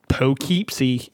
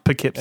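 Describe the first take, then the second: First: The first syllable rhymes with 'dough'. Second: The first syllable does not rhyme with 'dough'. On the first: The speaker calls it wrong. "it's spelled like dough, but with a P, and then keep" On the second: The speaker calls it right. "but it's pronounced Poughkeepsie"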